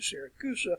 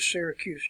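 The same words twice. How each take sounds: First: The name has the local Italian pronunciation. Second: The name has its usual English pronunciation. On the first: "or they pronounce it Syracuse" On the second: "When you go to Syracuse today"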